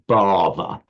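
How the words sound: It is pronounced with an English accent. "The native English speaker probably says something"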